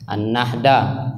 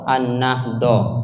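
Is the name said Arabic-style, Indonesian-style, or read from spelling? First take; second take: Indonesian-style; Arabic-style. First: The name is said with Indonesian-style sounds. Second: The name is said with its Arabic sounds. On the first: "karena lidah Indonesia dipakai" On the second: "tapi bacanya An-Nahdoh"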